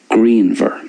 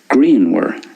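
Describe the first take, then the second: First: The middle consonant is a V sound. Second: The middle consonant is a W sound. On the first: "So I'm pronouncing that the Munster way" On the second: "In Connacht then, it's greenwer"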